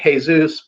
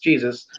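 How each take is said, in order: First: The name is said with a Spanish pronunciation. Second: The name is said with an English pronunciation. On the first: "Spanish people say Jesus" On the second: "but it's Jesus"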